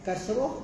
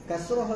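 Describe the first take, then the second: Both takes have the same delivery.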